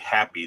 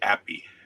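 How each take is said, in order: First: The word begins with an h sound. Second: The word begins without an h sound. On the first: "they don't say happy" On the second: "They say appy"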